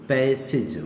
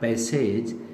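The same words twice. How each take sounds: First: The final syllable has a short 'ij' vowel. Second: The final syllable has a long 'ej' vowel. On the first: The speaker calls it right. "इसे सिज कहें" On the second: The speaker calls it wrong. "not passage"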